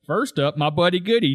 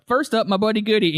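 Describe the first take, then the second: First: Firing the line right back, lightly imitated; Zig. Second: Higher-pitched quote of Shoresy; imitated announcement. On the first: Zig firing right back at Shoresy, mimicking retort. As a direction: parrot his introduction back at him. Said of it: "fire right back at Shoresy". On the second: Shoresy introducing his buddy Goody, higher-pitched imitation. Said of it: "because he's like".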